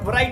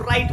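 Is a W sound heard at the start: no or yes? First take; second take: yes; no. First: The word starts with a W sound before R. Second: The word starts directly with an R sound. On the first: The speaker calls it wrong. "राइट नहीं बोलेंगे" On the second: The speaker calls it right. "इसको राइट बोलेंगे"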